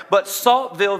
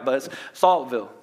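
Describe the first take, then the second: First: Said in the usual way. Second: Saltville said the Southern local way; Southern pronunciation. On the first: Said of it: "That's how they say it". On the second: Shown as a demonstration. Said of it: "so I'm gonna pronounce it right".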